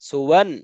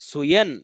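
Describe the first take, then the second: First: The middle consonant is a w sound. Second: The middle consonant is a y sound. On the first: The speaker calls it right. "ওয়াও দুই জবর ওয়ান" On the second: The speaker calls it wrong. "অনেকেই এই ওয়াও বাদ দিয়ে ইয়ার মধ্যে অনেকেই উচ্চারণ করে"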